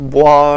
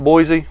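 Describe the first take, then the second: First: It is said with a French pronunciation. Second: It is read as it looks, English style. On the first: "I think Bois or something is the pronunciation in France" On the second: "It looks like Cedrat Boise. That's what I'm calling it"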